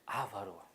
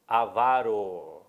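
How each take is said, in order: First: The stress falls on the first syllable. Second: The stress falls on the second syllable. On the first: The speaker calls it wrong. "Não existe avaro" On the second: The speaker calls it right. "O certo é avaro"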